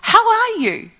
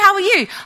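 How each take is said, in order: First: It sounds slow, sincere and interested. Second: It sounds quick, casual and offhand.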